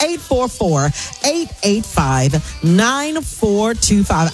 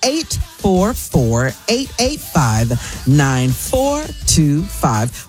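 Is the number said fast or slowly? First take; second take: fast; slowly. First: The number is said at normal, quicker speed. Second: The number is said slowly and deliberately.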